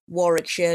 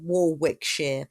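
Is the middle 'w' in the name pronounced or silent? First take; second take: silent; pronounced. First: The middle 'w' is silent in the name. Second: The middle 'w' is pronounced in the name. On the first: The speaker calls it right. "it was Warwickshire" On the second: The speaker calls it wrong. "not Warwickshire"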